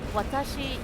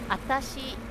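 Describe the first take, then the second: First: The word begins with a clear W sound. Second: The word begins without any W sound. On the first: It is the neutral, adult form. "you hear the clear W sound when I pronounce it" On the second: It is a cutesy form used by little girls. "you drop the first W sound"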